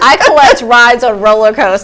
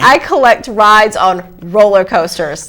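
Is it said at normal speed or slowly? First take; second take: normal speed; slowly. First: It is said at normal speed. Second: It is said slowly.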